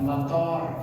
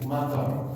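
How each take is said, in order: First: The vowels are rounded o sounds. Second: The vowels are open a sounds. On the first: The speaker calls it wrong. "bukan motor" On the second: The speaker calls it right. "Menyebutnya sekali lagi matar"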